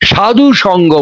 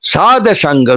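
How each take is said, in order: First: The first word ends with an 'u' vowel. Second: The first word ends on a bare consonant. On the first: The speaker calls it wrong. "উচ্চারণটা ভুল হয়। সাধু সঙ্গ বলি আমরা" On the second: The speaker calls it right. "সাধু সঙ্গ নয়, সাদ সাঙ্গ, দন্তে সহাকার ধয় হসন্ত"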